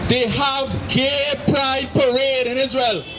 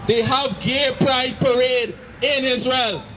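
No difference in how they are said.

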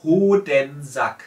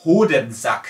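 First: Hodensack said slowly, falling at the end, h barely heard; slow falling repeat of Hodensack; German word repeated. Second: Hodensack, crisp German h, long o, z-sound for s, "zak" at the end; German word Hodensack. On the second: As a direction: say Hodensack the German way, clear and loud. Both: Shown as a demonstration. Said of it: "So the new word will be".

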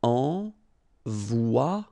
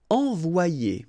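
First: "Envoyer" said slowly and built up, ahn-vwah-YAY, rising at the end; slow model word. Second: "Envoyer" said at normal speed and falling, ahn-vwah-YAY; "Envoyer" said smoothly; normal model word. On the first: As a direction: build up "Envoyer" syllable by syllable. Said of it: "it's ye". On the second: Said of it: "so it's wa". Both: Shown as a demonstration.

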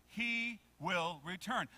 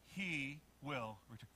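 First: Slow, firm, fuller voice; a little louder. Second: Low, soft, slow words; quiet prompt. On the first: Preacher urging the congregation to repeat, a little louder. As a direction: project it word by word. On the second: Preacher leading the congregation to say it, quietly. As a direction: lead a soft, measured repeat. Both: Shown as a demonstration. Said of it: "A little bit louder".

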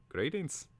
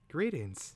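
First: High-pitched creature voice, rising at the end; bird's greeting. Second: High-pitched reply, falling at the end; Twig's returned greeting. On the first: Caterbird formally greeting Twig, in high bird voice. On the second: Twig answering the Caterbird, lightly voiced falling greeting. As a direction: return the greeting high, then let it drop. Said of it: "said Twig". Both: A narrator's reading.

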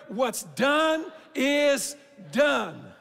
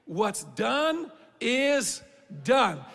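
First: Very slow and louder, "done" shouted with a falling end; loud call to repeat. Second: Very slow, each word weighed, "done" falling heavy; slow emphatic declaration. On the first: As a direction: lead the crowd in a ringing "What's done is done.". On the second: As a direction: lay down "What's done is done." word by word. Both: Shown as a demonstration. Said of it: "can we say that together".

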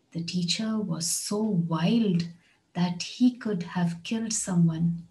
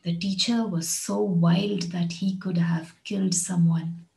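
First: Slow, wild stressed and falling; slow repeat. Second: Said in the usual way. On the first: Shown as a demonstration. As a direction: break it into two slow halves for learners. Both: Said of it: "Listen to this one".

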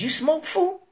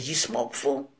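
First: High-pitched, rising question; raised questioning. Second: Low, soft, understated ask; low-key question. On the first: Storyteller repeats Danger's question to Wicked, raised and questioning. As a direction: lift it up into a pointed query. Retelling the question, misread as challenge. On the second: Danger asks Wicked to smoke, low-key and quiet. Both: Retold or imitated.

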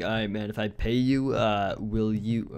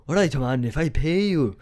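First: Said in the usual way. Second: A lightly put-on Scottish ogre accent; slightly louder, half-hearted Scottish brogue; hammed-up Shrek voice, quickly dropped; Shrek's Scottish accent. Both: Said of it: "I have to do it in his accent".

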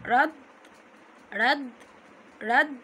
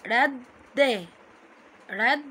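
First: "رد" cut off on an unvowelled d; stop on silent consonant. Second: "رد" split as rad, then da; doubled letter with fatha. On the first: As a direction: stop hard on the d of "رد". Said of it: "ننطق الحرف على طول ساكن". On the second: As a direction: say "رد" in two beats, rad-da. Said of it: "عليه ايه بعد كده الحرف المتحرك". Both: Shown as a demonstration.

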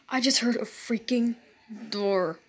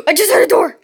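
First: Low hushed repeat; quiet disbelief. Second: Fast, loud, startled report; startled gasp. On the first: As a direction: say it again, hushed and uneasy. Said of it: "repeated quietly". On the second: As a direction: blurt it out in alarm. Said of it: "first take, startled". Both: Real, not acted.

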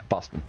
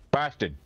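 First: Said in the usual way. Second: Put-on Boston said as "Bahstan" in a Boston accent; mock Boston accent. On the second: Player mimics a Boston accent on the city name. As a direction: drawl "Boston" as a Boston local would.

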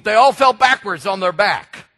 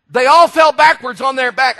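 First: Said in the usual way. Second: Higher and louder, the same line hammered home; rising preacher's emphasis; louder preached repeat. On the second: Acted. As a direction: preach it out to the back row.

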